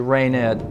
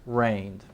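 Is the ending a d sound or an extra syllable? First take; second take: extra syllable; d sound. First: The ending is an extra syllable. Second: The ending is a single d sound. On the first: The speaker calls it wrong. "We don't say rained" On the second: The speaker calls it right. "we say rained"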